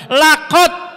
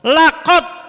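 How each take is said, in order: Both takes have the same delivery.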